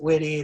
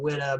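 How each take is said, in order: First: The name ends with an 'ee' sound. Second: The name ends with an 'uh' sound. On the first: This is the speaker's own way of saying it. "I pronounce it Witty" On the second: This is how the brewery says it. "They call it Witta"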